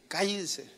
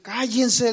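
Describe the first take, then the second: First: Stern face. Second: Loud raised command; firm shout. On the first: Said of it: "poner cara de". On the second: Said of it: "tienes que decir". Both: Shown as a demonstration.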